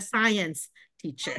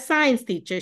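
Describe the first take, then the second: First: Science is said with two clear syllables. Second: Science is squeezed into one syllable, like signs. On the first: The speaker calls it right. "She's a science teacher" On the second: The speaker calls it wrong. "She's not a science teacher"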